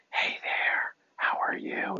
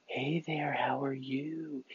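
First: Breathy unvoiced whisper. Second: Slow, drawn-out whisper with a little something in it; slower whisper. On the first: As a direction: whisper it softly, like a secret. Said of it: "it doesn't have to be like". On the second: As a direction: stretch the whisper out, play with it. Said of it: "No, it could be like". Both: Shown as a demonstration.

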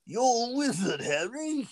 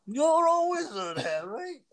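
First: Put-on high, hammy British accent; a terrible mock British accent, pitched way up; bad British accent. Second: Very high, slow hammed-up British accent; bad British accent. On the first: Host doing a bad British accent for his brother. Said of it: "That's my, uh, British accent". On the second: Host repeating his bad British Hagrid line for laughs. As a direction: overdo a terrible British Hagrid voice. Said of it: "your really bad British accent. Or Hagrid impression".

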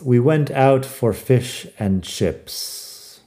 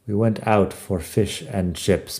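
First: Slow, careful model sentence; deliberately slow teacher read; slow example sentence. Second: Said in the usual way. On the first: Shown as a demonstration. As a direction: say it slowly, word by word, for learners. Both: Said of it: "Así tengo un par de frases".

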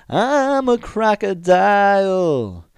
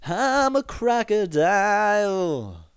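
First: High, loud, slow and drawn-out; creepy crocodile line. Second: High, slow, drawn-out cartoon croc; crocodile voice. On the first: Retold or imitated. Shawn staring at the girl, loud and high and slow. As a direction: belt it at her, dead serious and unblinking. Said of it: "look at the girl and he goes". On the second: Quoting the crocodile from the kids' movie, high and slow. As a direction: sing it out like a silly cartoon crocodile. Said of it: "the alligator's saying".

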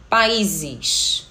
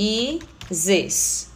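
First: Said in the usual way. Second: "Países" broken into Pa... í... ses; syllable by syllable. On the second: Shown as a demonstration. Teacher gives another example, "Países", syllable by syllable. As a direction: separate each syllable of "Países" with a pause. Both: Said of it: "outro exemplo".

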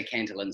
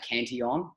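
First: Cantillon said as "CAN-tuh-lun"; common anglicised pronunciation. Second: Cantillon said as "can-tee-ON"; Cantillon, French-style, the double L as a y-glide; French-style pronunciation. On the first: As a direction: say Cantillon the English way, with a clear L. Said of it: "I always hear people say". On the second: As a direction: say Cantillon with a "tee" in the middle and an open "on" ending. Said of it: "don't know how to pronounce that word correctly". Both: Shown as a demonstration.

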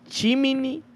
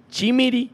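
First: "chimini" said slowly with an N; pronounced with N. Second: "chimiri" set apart, higher, with an R; pronounced with R. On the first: Host showing how some people say it, "chimini" with a clear N. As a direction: sound out "chimini" with N in the last syllable. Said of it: "dicen chimini". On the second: Host showing their own version, "chimiri" with a clear R. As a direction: sound out "chimiri" with R in the last syllable. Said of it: "yo digo chimiri". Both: Shown as a demonstration.

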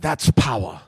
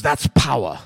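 First: Put-on German accent. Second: Put-on clipped German-accented that's power, low and dry. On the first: Repeating the German officer's line, heavier German accent. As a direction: lower German-accented that's power, said again more firmly. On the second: Quoting the drunk German officer in Schindler's List, German accent. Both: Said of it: "It's a German accent".

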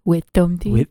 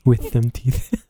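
First: "Wisdom teeth" with a lisped th, tongue sloppy; slurred imitation. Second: "with them teeth" drawn out slowly, thick lisping th sounds; lisping slur. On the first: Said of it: "I saw your tongue go like". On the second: Shown as a demonstration.

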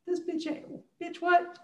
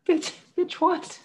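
First: Put-on much higher, like a scared little kid; a failed German accent gone squeaky and high; squeaky Hitler impression. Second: Put-on much higher, like a scared little kid; squeaky Hitler impression. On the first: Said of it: "I can't do a German accent". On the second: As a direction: repeat the bit in a high, frightened kid's voice.

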